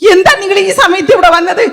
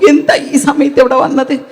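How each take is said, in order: First: It is said loudly, almost shouted. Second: It is said quietly, like a secret.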